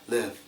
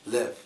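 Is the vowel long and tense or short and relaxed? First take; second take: short and relaxed; short and relaxed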